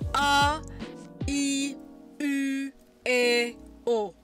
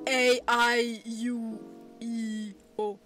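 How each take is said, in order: First: The vowels are short, pure Japanese vowel sounds. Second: The vowels are said like English letter names. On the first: The speaker calls it right. "you want to pronounce the Japanese vowels. So it's" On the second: The speaker calls it wrong.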